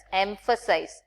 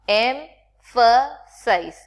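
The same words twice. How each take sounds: First: Said in the usual way. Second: Emphasize drawn out very slowly, each syllable spelt out, with the PH as an f sound. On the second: Shown as a demonstration. Teacher sounding out emphasize slowly for the class. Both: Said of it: "P H A refers to fa".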